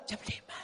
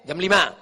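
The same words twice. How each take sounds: First: Barely voiced breathy sigh; sighing, sultry voice. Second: Said in the usual way. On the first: Shown as a demonstration. Preacher shows women how not to speak, sighed answer. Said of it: "mendesah-desah". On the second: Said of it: "Suara aja yang normal".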